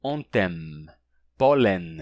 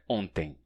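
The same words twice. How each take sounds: First: Ontem with lips closing on M; pólen with the tongue touching for N; final consonants touched. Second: Ontem ending in a nasal vowel, lips open; ontem, no M touch at the end. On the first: Teacher demonstrating the wrong pronunciation. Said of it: "Não se pronuncia". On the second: Teacher giving the correct Portuguese ontem. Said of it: "Não, é ontem". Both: Shown as a demonstration.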